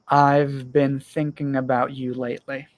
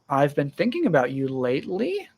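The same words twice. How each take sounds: First: The voice falls at the end. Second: The voice rises at the end. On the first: "I don't think you want a question mark there"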